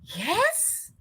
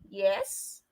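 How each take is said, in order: First: It sounds surprised. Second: It sounds unsure and hesitant.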